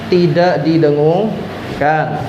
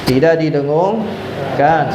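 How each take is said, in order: No difference in how they are said.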